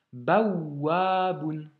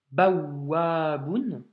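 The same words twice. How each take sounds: First: Bawaboun slow with the doubled waw pressed hard; stress the shedda. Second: Bawaboun very slowly with the waw doubled and pressed. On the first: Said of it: "doubler cette consonne". (bawaboun lent, shedda bien appuyée) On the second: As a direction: lean hard on the doubled w of bawaboun. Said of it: "on doit insister, appuyer". (bawaboun très lent, le waw doublé et appuyé) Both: Shown as a demonstration.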